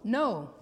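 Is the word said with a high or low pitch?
high. The word is said with a high pitch. "the up pitch of no"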